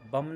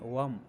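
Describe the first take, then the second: First: The word begins with a b sound. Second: The word begins with a v sound. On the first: The speaker calls it wrong. "बम नहीं" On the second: The speaker calls it right. "वावाला वम"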